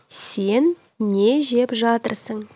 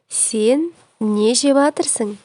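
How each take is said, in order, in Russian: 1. Каждый слог глагольной фразы произносится. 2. Глагольная фраза сжимается до меньшего числа слогов.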